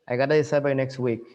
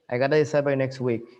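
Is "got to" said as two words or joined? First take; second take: joined; joined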